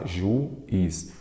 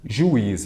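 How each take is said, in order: First: Juiz split as "ju... is"; syllable by syllable. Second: Said in the usual way. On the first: Shown as a demonstration. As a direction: break juiz into two separate syllables, ju and is. (juiz separado em duas sílabas, ju e is) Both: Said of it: "vamos lá".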